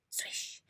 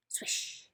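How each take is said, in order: Both takes have the same delivery.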